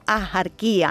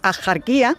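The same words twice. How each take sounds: First: The middle consonant is a soft breathy h sound. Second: The middle consonant is a harsh throaty j sound. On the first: This is the traditional local pronunciation. "Con una H aspirada" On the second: This is the formal standard pronunciation. "pronunciarlo con J"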